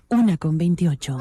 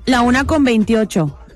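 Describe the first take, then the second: First: It is said in a radio announcer voice. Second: It is said in her normal speaking voice.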